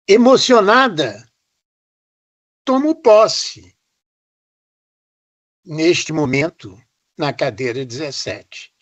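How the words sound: It is spoken with marked pauses between parts. "o ritmo, a sonoridade, o silêncio"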